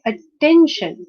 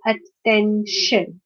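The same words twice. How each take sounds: First: "attention" said as one word, at-TEN-tion; second-syllable stress. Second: "attention" slowly as at-ten-tion; syllable by syllable. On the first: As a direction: punch the middle syllable of "attention". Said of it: "stress is on the second syllable". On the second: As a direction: break "attention" into three parts. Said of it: "this is a three-syllabic word". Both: Shown as a demonstration.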